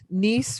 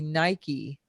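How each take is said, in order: First: The middle consonant is a soft S sound. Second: The middle consonant is a hard K sound.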